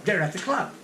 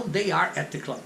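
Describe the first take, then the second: First: "They're at the club" run together, R linked. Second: "they are at the club" word by word, no contraction; unlinked they are. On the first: Teacher showing the street form, linked. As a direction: glide "they're" into "at". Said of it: "Isso é que é interessante". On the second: Teacher showing the form not used. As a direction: keep "they are" apart. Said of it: "E não". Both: Shown as a demonstration.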